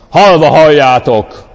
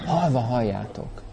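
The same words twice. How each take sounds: First: "Halva halljátok" thundered loud and slow; artificially grand, slow proclamation; booming preacher voice. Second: "Halva halljátok" said soft and quiet; quiet caring version of the line; gentle, loving. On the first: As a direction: declaim "Halva halljátok" like a pompous pulpit boom. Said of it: "ne tegyél hozzá mesterségesen egy ilyen zengzetes hangzást". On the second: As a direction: speak "Halva halljátok" tenderly, no boom. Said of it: "Szeretet, törődés". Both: Shown as a demonstration.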